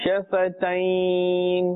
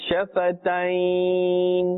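Both takes have the same delivery.

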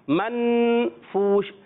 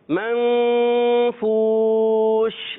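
First: The n sound is pronounced clearly and fully. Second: The n sound is hidden and nasalized. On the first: The speaker calls it wrong. "نون کلیئر کریں گے تو آواز آئے گی" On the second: The speaker calls it right. "ہم نے چھپا کے"

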